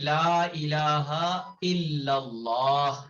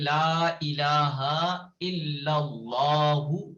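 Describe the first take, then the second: First: It stops on the final h without a vowel. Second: It ends in a u and runs on. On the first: "stop करें और करें कहें" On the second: "stop नहीं करते हैं, रुकते नहीं हैं"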